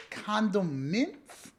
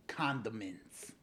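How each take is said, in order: First: Slow, high CONDIMENTS rising at the end; questioning. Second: Slow, low CONDIMENTS falling at the end; soft, slow CONDIMENTS with a falling ending; quiet statement. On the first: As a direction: draw out CONDIMENTS as a puzzled question. Word repeated as a question. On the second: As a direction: let CONDIMENTS drop softly into a realization. Word repeated as quiet realization. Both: Pretend.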